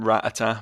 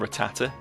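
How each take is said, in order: First: It sounds like a gun's rat-a-tat. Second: It follows the anime's pronunciation. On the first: This is the speaker's habitual way of saying it. "like the noise a Tommy gun makes" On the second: This is how the cartoon says it. "in the anime they call them Rattata"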